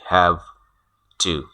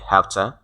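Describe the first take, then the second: First: The two words are said separately and fully. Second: The two words run together as one reduced form. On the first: This is formal language. "pronounce it separately and fully, like" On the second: This is casual, informal speech. "in spoken English, informal English, we pronounce these two words have and to, like"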